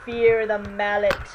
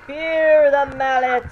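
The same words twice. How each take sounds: First: Said in the usual way. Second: Louder, slower menacing repeat of Fear the mallet; hammy villain threat, drawn out; slow booming villain boast. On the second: Pretend. Gamer taunting goons as a mock villain, slow and loud.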